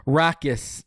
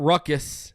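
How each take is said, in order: First: Rackus with a short 'a' as in rack; RACK-us, the 'a' of cat; pronunciation demo. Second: Ruckus with the 'uh' of duck; RUCK-us, short 'u' sound; pronunciation contrast. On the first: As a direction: say Rackus, rhyming the first part with 'back'. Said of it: "It's Rackus". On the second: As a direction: say Ruckus, first part like 'ruck'. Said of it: "not Ruckus". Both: Shown as a demonstration.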